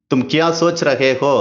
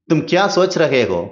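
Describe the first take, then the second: The two takes are said the same way.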